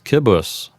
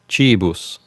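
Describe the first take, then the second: First: The word begins with a hard k sound. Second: The word begins with a ch sound.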